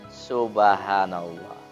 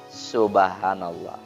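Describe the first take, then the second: Both takes have the same delivery.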